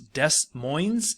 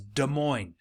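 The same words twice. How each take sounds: First: The S sounds in the name are pronounced. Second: The S sounds in the name are silent. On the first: The speaker calls it wrong. "a lot of people incorrectly call this Des Moines" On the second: The speaker calls it right. "you just kind of say it without the S's"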